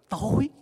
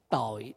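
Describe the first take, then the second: First: The word is said with a rising tone. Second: The word is said with a low glottal tone. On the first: It means dark. "Để dấu sắc vô thì nó rất là gì?" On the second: It means sin. "Mà để dấu nặng thì sao?"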